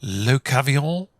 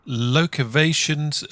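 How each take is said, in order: First: LOCAVION slowly, ending in "-vion" without "-ations"; carefully retry the name as LOCAVION; corrected second attempt. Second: LOCOVATIONS with a stray "-ations" ending; fumbled name. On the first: Correcting himself while listing hangars, careful retry. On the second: Reading out the airport's features, fumbled name. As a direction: stumble over the name as LOCOVATIONS. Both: Real, not acted. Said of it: "let's say that again".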